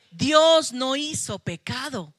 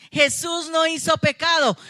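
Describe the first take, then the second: First: Said in the usual way. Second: Shouted, higher and louder, with NO hit hard; preacher's shout. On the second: Acted. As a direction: proclaim it at full force to the congregation. Predica el punto central. (la predicadora grita la verdad a la congregación)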